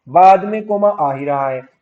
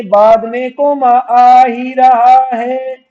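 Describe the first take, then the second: First: Said in the usual way. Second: Loud, high, stretched-out chant; raised, drawn-out teacher's call; emphatic drilling. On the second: Shown as a demonstration. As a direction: belt the rule out slowly, syllable by syllable. Teacher hammers the rule home.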